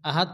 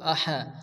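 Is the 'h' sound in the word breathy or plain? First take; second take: plain; breathy. First: The h sound is light and plain. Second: The h sound is strongly breathy from the throat. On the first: The speaker calls it wrong. "অনেকে আছে আহাদ ছোট হা পড়ে, আহাদ পড়া যাবে না" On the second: The speaker calls it right. "মুখ দিয়ে বাতাস বাইরে করে উচ্চারণ করতে হবে"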